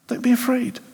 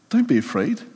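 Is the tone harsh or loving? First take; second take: loving; loving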